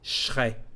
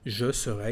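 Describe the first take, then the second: First: The subject and verb are fused into one chunk. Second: Every syllable is said, including the middle vowel. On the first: "if you want to mix now the verb with, with the subject" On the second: "is a perfect pronunciation"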